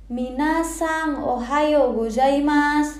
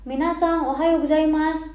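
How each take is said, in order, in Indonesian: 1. Sapaan itu diucapkan sangat lambat, dipanjang-panjangkan. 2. Sapaan itu diucapkan dengan cepat dan lancar.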